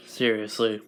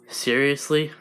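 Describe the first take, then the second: First: Low, falling, quieter seriously; flat confirmation. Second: Rising, doubting seriously; incredulous question. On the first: Monster confirming to Deku, low and flat. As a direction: settle it down low and dry. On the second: Deku questioning the monster, incredulous rise. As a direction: ask it in disbelief, voice lifting. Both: Acted. Disbelieving question, then confirmation.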